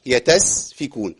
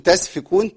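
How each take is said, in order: First: تسفكون said tesfikun, the right way; light t vowel in تسفكون; correct vowel. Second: تسفكون said tasfikun with the wrong first vowel. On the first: Teacher corrects تسفكون. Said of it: "ما تنفعش". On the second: Teacher shows the wrong تسفكون. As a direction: open the t of تسفكون to ta. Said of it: "تسفكون ما تنفعش". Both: Shown as a demonstration.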